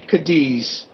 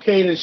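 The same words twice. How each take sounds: First: The name is said with a British pronunciation. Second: The name is said with a local, non-British pronunciation.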